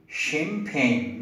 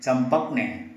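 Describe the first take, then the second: First: Champagne said as sham-pain with sh; right way champagne. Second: Champagne with a hard ch or t start; wrong way champagne. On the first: Teacher modelling champagne with sh, correct way. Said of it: "You have to say champagne". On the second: Teacher showing the wrong champagne, hard start. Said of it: "not champagne". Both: Shown as a demonstration.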